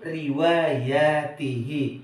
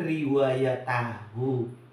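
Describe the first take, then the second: First: The ending is pronounced with 'i' vowels. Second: The ending is pronounced with 'a' and 'u' vowels. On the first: The speaker calls it right. "Yang betul riwayatihi" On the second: The speaker calls it wrong. "bukan riwayatahu"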